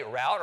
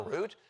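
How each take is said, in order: First: First "route" said as "rowt"; rhymes with about. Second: Second "route" said as "root"; rhymes with boot. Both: Shown as a demonstration. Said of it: "so you can say".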